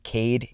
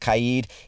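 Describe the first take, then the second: First: The name has an American-style pronunciation. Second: The name has a non-American, Moroccan-style pronunciation. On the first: The speaker calls it wrong. "It is not Cade" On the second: The speaker calls it right. "it is Kaid"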